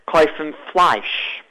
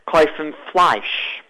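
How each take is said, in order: First: It is said in a Polish Yiddish accent. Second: The same.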